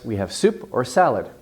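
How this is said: Soup and salad get equal stress. "I would tend to give it equal stress"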